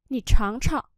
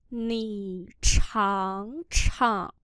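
First: Said in the usual way. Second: Very slow drawn-out teaching pronunciation; slow syllable-by-syllable model. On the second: Shown as a demonstration. Teacher models Chinese phrase for learners, very slowly. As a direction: stretch each syllable, pause between them.

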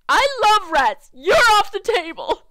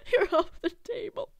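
First: Loud, high acted yell; acted outburst. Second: High, laughing repeat of the line; amused repeat. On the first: Arguing over rats and a house, loud high outburst. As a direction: belt it out, far louder and higher. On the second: Acted. Player cracking up at their own line, amused high repeat. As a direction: echo the outburst higher, breaking into laughter.

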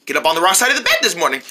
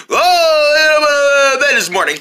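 First: Said in the usual way. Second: Whiny, high mock version of a friend; teasing a friend by mimicking him in a whiny voice; mocking imitation. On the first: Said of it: "That's not how I talk". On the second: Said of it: "Would you stop mocking me".

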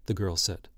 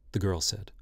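Both takes have the same delivery.

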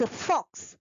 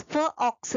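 First: "फॉक्स" as one whole word; blended word. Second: "फ, ऑक्स" split after the f; sounded out. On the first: ("फॉक्स" जोड़कर एक शब्द में) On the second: ("फ, ऑक्स" ध्वनियाँ तोड़कर) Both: Shown as a demonstration. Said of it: "ओ says अ".

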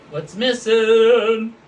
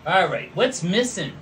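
First: Louder, slow drawn-out what's missing; game-show tease. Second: Said in the usual way. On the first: Pretend. Host quizzing viewers on the flag, loud drawn-out tease. Repeats quiz question.

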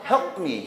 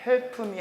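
First: "help me" with lips shut on the P, unreleased; P cut off. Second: "help me" with a vowel after the P, help-uh me; Korean-style "helpu me"; wrong added vowel. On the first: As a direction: stop dead on "help", then "me". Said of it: "확 끊어서 help me". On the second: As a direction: let "help" spill an extra syllable before "me". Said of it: "help me 하지 말고". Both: Shown as a demonstration.

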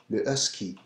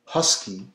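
First: Husky with almost no H, le ɛski; French husky. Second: Husky with a strong pushed H; English husky. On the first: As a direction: drop the push on the H in husky. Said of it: "which is a very strong H". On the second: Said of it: "As opposed to the English". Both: Shown as a demonstration.

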